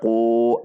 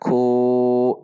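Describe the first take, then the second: First: The vowel is cut short. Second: The vowel is held for two counts. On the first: The speaker calls it wrong. "tidak dibaca ku" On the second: The speaker calls it right. "namun dibaca ku dua harokat"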